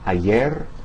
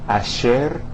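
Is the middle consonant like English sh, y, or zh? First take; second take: y; sh. First: The middle consonant sounds like English y. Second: The middle consonant sounds like English sh. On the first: "similar to the Y in the English word yo-yo" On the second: "the S H sound uh, of the English word cashier"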